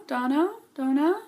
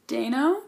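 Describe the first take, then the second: First: "Dano, Dona?" tried as "Dah-no", then "Doh-na" with a high questioning rise; retry "Dona?" with a puzzled lift at the end; second guess at name. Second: Dano said as "Day-no", rising like a question; unsure name. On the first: Vlogger still unsure of the actor's name, questioning "Dano, Dona?". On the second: Vlogger guessing an actor's name, unsure rising "Dano". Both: Real, not acted. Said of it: "Da-, I'm a terrible person".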